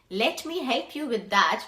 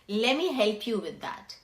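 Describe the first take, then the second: First: The words are said fully and separately. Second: The words are reduced and run together.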